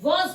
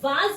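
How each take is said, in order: First: The vowel is a rounded 'aw'. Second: The vowel is an open, unrounded 'ah'. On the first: The speaker calls it right. "वॉज बोलते हैं" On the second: The speaker calls it wrong. "हम इसे वाज नहीं बोलते हैं"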